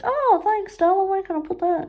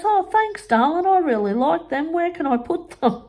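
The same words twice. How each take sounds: First: High, quick, gushing mock voice; mimicking mum. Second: High, sweet mock-gushing voice; mimicking mum. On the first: Retelling mum grabbing the work, high and gushing. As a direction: coo it like the oblivious mum. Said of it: "I couldn't get over it". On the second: Mimicking mum taking the mushrooms, high and sugary. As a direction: play the oblivious mum, sugary. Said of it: "And she goes".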